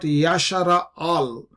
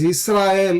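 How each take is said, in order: First: The name is said as Yasharael. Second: The name is said as Yisrael. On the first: The speaker calls it wrong. "It is not Yashara al, as uh, some of our people uh, say" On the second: The speaker calls it right. "It is Israel"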